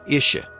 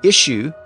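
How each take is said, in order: First: The final syllable is reduced to 'uh'. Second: The final syllable is said fully.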